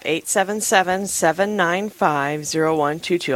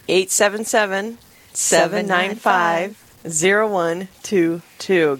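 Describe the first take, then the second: First: The number is said quickly. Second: The number is said slowly.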